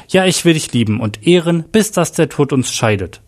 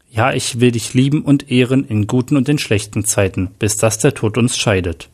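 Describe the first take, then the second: First: Higher-pitched, mildly excited vow; excited interruption. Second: Said in the usual way. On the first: A narrator's reading. Groom interrupts the registrar with his wedding vow, excited. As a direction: cut in eagerly, voice lifted. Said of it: "unterbrach Jack aufgeregt den Standesbeamten". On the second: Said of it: "antwortete Mark".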